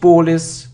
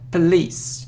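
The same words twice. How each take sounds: First: The first syllable has a full 'po' vowel. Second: The first syllable has a weak 'puh' vowel. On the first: The speaker calls it wrong. "Not police" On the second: The speaker calls it right. "it's p"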